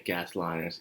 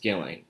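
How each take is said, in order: First: An S sound is pronounced inside the name. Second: No S sound is pronounced inside the name. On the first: The speaker calls it wrong. "I always say" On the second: The speaker calls it right. "the S is silent in her name"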